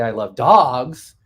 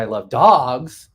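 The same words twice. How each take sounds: First: The word "dogs" carries the stress. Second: The word "dogs" carries the stress.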